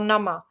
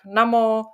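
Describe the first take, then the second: First: The word ends with a short -a sound. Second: The word ends with an -o sound. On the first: "nebo nama" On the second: "pak namo"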